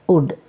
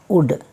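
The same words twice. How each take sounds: The two takes are said the same way.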